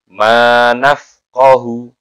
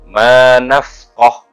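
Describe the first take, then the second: First: The word ends with a short 'u' vowel. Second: The word ends on the consonant, no vowel. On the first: The reading continues on without stopping. "Kalau dia wasal" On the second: The reading stops at this word. "kalau e, dibaca wakof"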